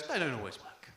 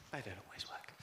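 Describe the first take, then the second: First: Said in the usual way. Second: Much softer, lower, dejected repeat; quiet. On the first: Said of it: "repeated line". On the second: Shown as a demonstration. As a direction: let it die away under your breath. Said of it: "repeated much softer".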